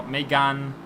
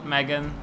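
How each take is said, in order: First: "Megane" in French, meh-GAHN, stress on the last syllable; "Megane" pronounced the French way, meh-GAHN. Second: Put-on "Megane" said like the girl's name Megan, MEG-un; "Megane" anglicised as Megan, stress on the first syllable; English-style Megane. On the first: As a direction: say "Megane" the French way, open "ahn" at the end. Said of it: "I should probably say it like that". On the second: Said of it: "not Megan". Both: Shown as a demonstration.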